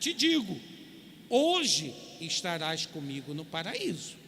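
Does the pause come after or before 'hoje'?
before. The pause comes right before 'hoje'. "em nossas versões"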